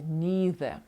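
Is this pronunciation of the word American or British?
American. The word is said with an American pronunciation. "Американці люблять казати neither"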